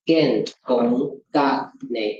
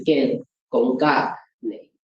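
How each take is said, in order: First: Slow, with a break between "Gen gong" and "ga ne"; pause inserted. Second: "Gen gong ga ne" run together in one smooth unbroken phrase; no pause. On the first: Lecturer showing students the wrong way, with a pause. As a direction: split "Gen gong ga ne" with a clear pause before "ga ne". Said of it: "You cannot, you cannot say". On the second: Lecturer showing students the right way, without a pause. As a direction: say "Gen gong ga ne" without any break between words. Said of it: "You can only say". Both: Shown as a demonstration.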